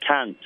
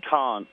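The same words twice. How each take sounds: First: "can't" with a flat nasal a, as in cant rhyming with ant; American can't. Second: "Can't" with a long open ah, like cahnt; English speaker's "Can't" with a broad a; British can't. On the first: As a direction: say "can't" the American way, short bright a. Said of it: "so I tend to say". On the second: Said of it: "I'll say things like". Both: Shown as a demonstration.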